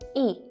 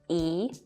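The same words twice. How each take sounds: First: The syllable is said with a falling tone. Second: The syllable is said with a rising tone. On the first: "E becomes the fourth falling tone" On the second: "E becomes the second rising tone"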